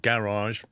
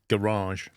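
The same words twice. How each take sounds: First: Garage is said with a British pronunciation. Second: Garage is said with an American pronunciation. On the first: "we either say it as garage or garage" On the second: "in the States you say garage"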